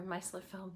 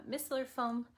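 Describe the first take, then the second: First: "micellar" with a long i, MY-suh-lar; alternative pronunciation of micellar. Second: "micellar" with a short i, MISS-uh-lar; first pronunciation of micellar. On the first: Presenter giving viewers the other way to say "micellar", long i as in my. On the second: Presenter offering viewers her preferred way to say "micellar", short i as in miss. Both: Shown as a demonstration. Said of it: "depending on how you wanna say it".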